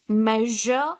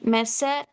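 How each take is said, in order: First: The middle consonant is a buzzing 'zh' sound. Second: The middle consonant is a hissing 's' sound. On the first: The speaker calls it right. "this is how it is pronounced as measure" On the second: The speaker calls it wrong. "but not measure or vision. Okay, that is wrong"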